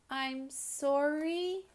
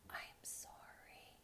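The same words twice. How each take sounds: First: It is said a little bit louder still. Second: It is said very, very softly.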